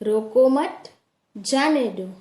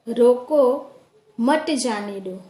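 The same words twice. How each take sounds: First: There is a pause right after mat. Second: There is a pause right after roko. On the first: Someone should not be stopped and should be allowed to go. "दूसरे वाक्य में रोको मत के बाद अल्प विराम लगाया गया है" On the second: Someone should be stopped and not allowed to go. "पहले वाक्य में रोको के बाद एक विराम चिन्ह लगाया गया है"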